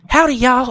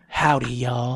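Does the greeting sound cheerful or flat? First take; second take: cheerful; flat. First: The greeting sounds bright and cheerful. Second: The greeting sounds flat and unenthusiastic. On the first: She sounds like her usual happy self. "It wasn't like" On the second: Something is wrong with her; she is fed up. "It was like"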